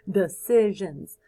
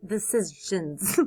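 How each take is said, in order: First: Laughing. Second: Said in the usual way. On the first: Shown as a demonstration.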